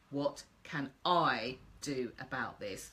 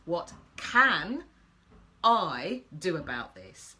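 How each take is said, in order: First: Said in the usual way. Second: "can" punched loud and rising, then a pause before a slow, loud "I"; deliberate emphasis on "can" and "I", louder and slower; stress on can and I. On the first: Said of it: "I'm gonna emphasize that sentence". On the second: Shown as a demonstration. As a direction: hit "can" and "I" hard, slowing down on "I do about this". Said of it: "emphasize that sentence with two important words".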